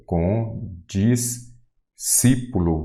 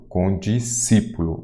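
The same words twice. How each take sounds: First: Condiscípulo very slowly as con, dis, cí-pulo; "condiscípulo" pulled apart into slow syllables. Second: Said in the usual way. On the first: Shown as a demonstration. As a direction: sound out "condiscípulo" with long pauses between syllables. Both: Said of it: "tem mais uma separação".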